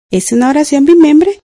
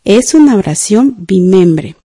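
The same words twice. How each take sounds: First: Said in the usual way. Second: Measured, slow dictation for writing. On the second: Shown as a demonstration. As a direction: dictate it slowly, leaving room to write.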